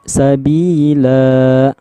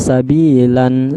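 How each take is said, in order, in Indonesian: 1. Kata ini berakhir dengan vokal terbuka. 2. Kata ini berakhir dengan bunyi n. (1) "tapi sabi sabila" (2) "jangan dibaca sabilan, itu salah"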